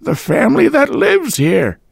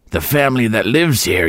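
First: Put-on high, thin old landlady voice; a deaf old woman fobbing him off, high-pitched. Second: Put-on old woman voice. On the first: Landlady brushing off the visitor at the door, high old-woman voice. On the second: Landlady repeating herself to Boyce. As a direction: mutter it again. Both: A narrator's reading.

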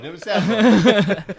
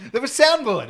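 First: Slowed repeat. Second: Laughing. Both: Real, not acted.

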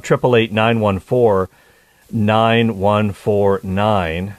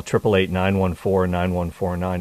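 First: Each digit drawn out slowly; slow number dictation. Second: Said in the usual way. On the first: Shown as a demonstration. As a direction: spell the number out slowly for callers. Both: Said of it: "Is the number to call".

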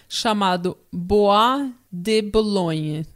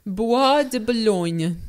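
First: Slow Italian-accented place name. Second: Slow French-accented place name. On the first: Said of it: "Eu falei com sotaque italiano". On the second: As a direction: drawl it like a Parisian. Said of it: "Eu vou tentar falar com sotaque francês". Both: Shown as a demonstration.

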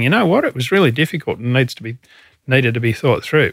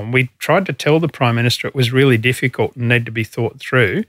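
First: Mock his belated admission, a bit quicker; mock Prime Minister. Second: Said in the usual way. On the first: Ex-chief mocking the Prime Minister's late admission, sarcastic. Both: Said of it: "And now he's saying".

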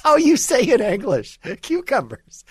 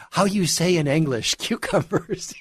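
First: High mocking fake Spanish accent, repeated for laughs; hammed-up fake Spanish accent, pitched high. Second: A lighter mock of a fake Spanish accent; laughing through a fake Spanish accent. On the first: Repeating the celebrity's line to mock her fake Spanish accent. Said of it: "completely fake Spanish accent". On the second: Quoting the celebrity again with a mock Spanish accent. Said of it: "when you listen to her on the Today Show".

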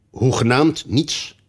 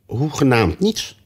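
First: Insisting king. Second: Said in the usual way. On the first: A narrator's reading. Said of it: "drong de koning aan".

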